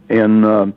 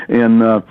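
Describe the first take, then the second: Both takes have the same delivery.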